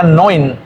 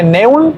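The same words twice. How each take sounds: First: "neun" said as NOYN; "neun" with one oy glide, falling at the end; as pronounced in German. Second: "neun" read by its spelling, ne-un; "neun" as NEH-oon, letters sounded separately; as written. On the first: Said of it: "pero se pronuncia neun". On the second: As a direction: say "neun" with Spanish e plus u. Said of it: "Se escribe neun". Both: Shown as a demonstration.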